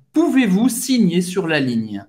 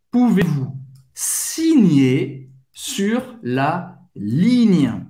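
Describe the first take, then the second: First: Pouvez-vous signer sur la ligne at a quicker pace; a bit faster. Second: Pouvez-vous signer sur la ligne, slow and spaced; slow drill; slow careful take. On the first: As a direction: speed it up slightly. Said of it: "acelerar um pouquinho a pronúncia". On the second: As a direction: say it slowly first. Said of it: "acelerar um pouquinho". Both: Shown as a demonstration.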